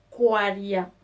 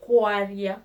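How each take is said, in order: Both takes have the same delivery.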